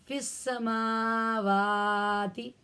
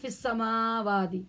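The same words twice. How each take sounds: First: Every long vowel is held at full length. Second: The long vowel on 'wa' is cut short. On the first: The speaker calls it right. "तीनों का हक अदा करना है" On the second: The speaker calls it wrong. "बस वाव को नहीं पढ़ना"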